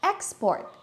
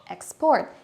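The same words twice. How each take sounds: First: Export with high first syllable; stress on EXport. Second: Export stressed on PORT, rising. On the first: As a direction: hit EX in export. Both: Shown as a demonstration. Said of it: "many other words like".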